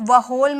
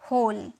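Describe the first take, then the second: First: The word begins with a W sound. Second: The word begins with an H sound. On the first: The speaker calls it wrong. "इसे डब्ल्यू को मत, वह होल मत बोलिएगा" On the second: The speaker calls it right. "यहाँ पे डब्ल्यू silent होता है, यहाँ पे हम इसे बोलेंगे होल"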